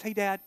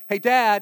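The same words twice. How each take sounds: First: Put-on child's casual call for Dad, at ordinary volume; casual first call. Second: Put-on child calling Dad, noticeably louder; louder second call. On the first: Kid to busy dad, first casual try. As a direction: try for Dad's attention without pushing yet. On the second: Kid to busy dad, louder second try. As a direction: push harder for a distracted dad's attention. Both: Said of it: "to me like a crescendo".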